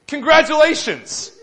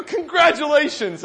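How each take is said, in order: First: Drawn-out, loud Congratulations, slow and pointed; dodging the question with Congratulations said slow and loud; slow flat congratulations. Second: Loud, slow Congratulations, third time; slow pointed congratulations. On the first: To the proud father, a loud, slow, pointed Congratulations. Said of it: "I said". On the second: To the father asking a third time, a slow, loud Congratulations. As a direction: land Congratulations slow and heavy to end it. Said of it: "I go". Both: Retold or imitated.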